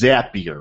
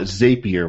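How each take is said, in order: First: The name rhymes with happier. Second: The name does not rhyme with happier. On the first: The speaker calls it right. "the correct way to pronounce it is Zapier" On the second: The speaker calls it wrong. "how many times have you heard people call it Zapier, which I mistakenly called it last week"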